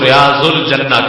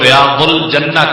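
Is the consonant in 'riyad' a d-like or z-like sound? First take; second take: z-like; d-like. First: The consonant is a z-like zwaad sound. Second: The consonant is a heavy d-like daad sound. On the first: This is how it is said in Urdu. "Urdu में अपनी जुबान में बोलेंगे" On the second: This is how it is said in Arabic. "अरबी जुबान के अंदर इसका जिक्र करेंगे"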